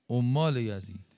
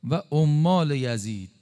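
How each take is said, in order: First: Said in the usual way. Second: Slow and louder, leaning on «عمال یزید»; emphatic repeat. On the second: Real, not acted. Preacher to congregation, hammering «عمال یزید» slowly. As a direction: drive «عمال» home, slow and heavy.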